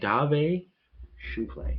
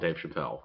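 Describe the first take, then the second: First: The name is said with a fancy French flair. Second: The name is said in a plain American way.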